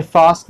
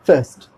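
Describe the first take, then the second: First: फास्ट with long "aa"; wrong pronunciation. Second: फर्स्ट with a short central vowel, "fust"; correct pronunciation. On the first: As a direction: say फास्ट as "faast". (फास्ट में लंबा आ) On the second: (फर्स्ट में छोटा अ) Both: Shown as a demonstration. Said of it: "ये फास्ट नहीं आएगा".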